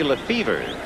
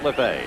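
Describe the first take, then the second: First: The name ends with a 'feev-er' sound. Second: The name ends with a plain 'fay' sound. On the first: This is how the other player says the name. "pronounces it differently from the Dodger infielder Jimmy Lefevre" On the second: This is how this player says the name. "The Joe has it LeFay"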